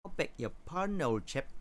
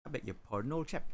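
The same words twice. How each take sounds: First: Put-on higher take in a light British accent; a hint of a Cockney-ish British voice; mock British accent. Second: Put-on lightly done posh British accent, old chap; a hint of a plummy British accent; mock posh British. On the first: Second try for chat in a light British accent. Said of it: "talking like a co-, like a, uh, a person with a Cockney accent". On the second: Answering chat's request in a light posh British accent. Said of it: "In an angry style".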